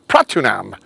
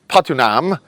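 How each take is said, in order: First: The first syllable has an r sound. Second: The first syllable has no r sound. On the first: The speaker calls it right. "I should pronounce it Pratunam" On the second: The speaker calls it wrong. "And I pronounce Patunam"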